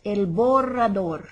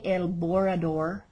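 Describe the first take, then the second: First: Slow "borrador" with a trilled RR; rolled R's. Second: "borrador" with plain English R's; unrolled R's. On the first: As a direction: roll the double R in "borrador". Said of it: "those rolling R's". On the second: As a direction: say "borrador" without any trill. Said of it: "and not rolling your R's". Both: Shown as a demonstration.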